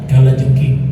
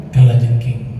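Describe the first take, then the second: The two takes are said the same way.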